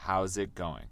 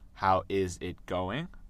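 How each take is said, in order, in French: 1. « How is » se contracte en une seule syllabe. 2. « How is » se dit en deux mots entiers. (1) "c'est mieux de dire how's it going" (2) "vous pouvez dire how is it going"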